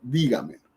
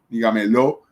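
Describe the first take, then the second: First: The stress is on the first syllable. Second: The stress falls after the first syllable. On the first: The speaker calls it right. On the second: The speaker calls it wrong.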